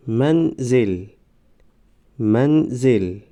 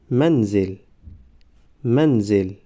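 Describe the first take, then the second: First: Slow, syllables held and separated; slow syllable reading. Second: Said in the usual way. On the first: Shown as a demonstration. Teacher models first readings for learners, slow syllable by syllable. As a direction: sound it out for learners, pausing between syllables. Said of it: "بار یکم و دویم آهسته". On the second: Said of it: "به مثل خوانش سوم و چهارم".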